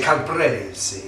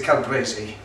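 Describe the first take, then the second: First: Drawn-out Italian-style Calabrese; Italian accent. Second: Said in the usual way. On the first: Shown as a demonstration. Host showing off his favourite pronunciation, Italian accent. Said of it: "misappropriation of an Italian accent". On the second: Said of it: "you're gonna say Calabrese".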